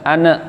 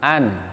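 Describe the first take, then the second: First: The n bounces off into a short vowel. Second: The n is held softly and stops cleanly. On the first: The speaker calls it wrong. "yang nun sukun jangan ane" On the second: The speaker calls it right. "nekannya halus ... Tidak boleh sampai meman"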